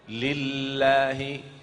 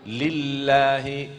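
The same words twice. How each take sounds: Both takes have the same delivery.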